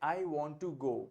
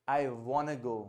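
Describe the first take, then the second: First: Want and to are said as separate words. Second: Want and to merge into a quick wanna. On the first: "किस प्रकार से आप कहते हैं" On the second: "speed से बोलते हैं"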